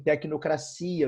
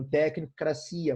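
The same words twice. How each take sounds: First: Said in the usual way. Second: Tecnocracia said as "técn" and "cracia", two separate parts; split into two roots. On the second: Shown as a demonstration. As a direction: break tecnocracia in two, leaving out the linking o. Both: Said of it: "Vou unir os dois".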